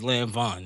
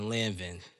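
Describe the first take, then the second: First: The last syllable is said like 'von'. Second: The last syllable is said like 'vin'. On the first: The speaker calls it right. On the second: The speaker calls it wrong.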